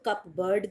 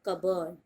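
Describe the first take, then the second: First: It sounds like cup plus bird. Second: It sounds like cub-erd, without p or r. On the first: The speaker calls it wrong. "कुछ लोग इसको कप बर्ड भी कहते हैं, and both are wrong" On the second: The speaker calls it right. "English में बोलते हैं कबर्ड"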